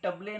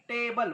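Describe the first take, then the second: First: The first vowel is a short 'uh'. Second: The first vowel is 'ay'. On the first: The speaker calls it wrong. "टबले नाही" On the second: The speaker calls it right. "टेबल बघा"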